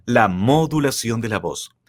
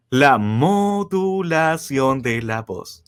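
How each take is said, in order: First: Said in the usual way. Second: Slow announcement. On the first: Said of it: "repetición normal". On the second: Shown as a demonstration. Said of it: "anuncia el tema, lento".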